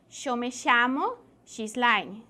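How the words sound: It is said in an Argentine accent. "generalmente los argentinos pronuncian"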